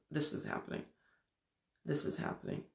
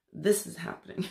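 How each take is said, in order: First: Breathy unvoiced whisper, each snapshot hushed. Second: Said in the usual way. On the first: Speaker mimicking the mind's present moments, whispering. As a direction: breathe it out like a secret.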